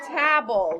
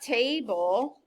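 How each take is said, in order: First: The first vowel is short, as in 'tab'. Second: The first vowel is long, as in 'tay'. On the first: The speaker calls it right. "It would have a breve, not a macron" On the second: The speaker calls it wrong. "not table"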